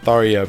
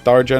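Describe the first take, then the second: First: The middle consonant is a 'y' sound. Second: The middle consonant is a 'j' sound. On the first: The speaker calls it wrong. "not Tharia" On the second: The speaker calls it right. "I'm saying Tharja"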